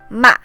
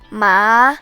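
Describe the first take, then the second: First: The pitch drops sharply from high to low. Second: The pitch rises moderately. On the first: "starts out high but drops sharply to the bottom" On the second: "The second tone rises moderately"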